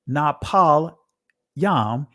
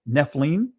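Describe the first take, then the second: First: It is said the reconstructed ancient Hebrew way. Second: It is said the modern Israeli Hebrew way. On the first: "I'm pronouncing this from the ancient Hebrew" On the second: "in the Israeli be Nephilim"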